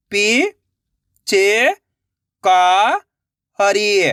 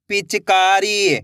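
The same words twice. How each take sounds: First: पी, च, का, री held, with gaps; syllable by syllable. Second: पिचकारी joined into one slow word; blended word. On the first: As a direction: sound out पी, च, का, री one by one. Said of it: "एक एक अक्षर का उच्चारण करके". (पी, च, का, री अलग-अलग) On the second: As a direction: say पिचकारी whole, drawn out. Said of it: "तो मिलके बन जाएगा". (पिचकारी मिलाकर, धीरे से) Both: Shown as a demonstration.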